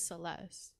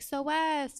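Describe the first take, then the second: First: The name is pronounced in the normal way. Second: The name is pronounced in a distorted way. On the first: The speaker calls it right. "my name's" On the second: The speaker calls it wrong. "she'll be like"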